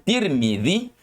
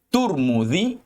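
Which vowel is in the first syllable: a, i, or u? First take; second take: i; u. First: The first syllable has the vowel i. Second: The first syllable has the vowel u. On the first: "boleh dibaca dengan Tirmidzi" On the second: "boleh dibaca dengan uh, Turmudzi"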